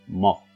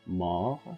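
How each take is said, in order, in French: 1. La voyelle O est fermée et courte. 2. La voyelle O est ouverte et longue. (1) "on peut pas dire mort" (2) "non, mort"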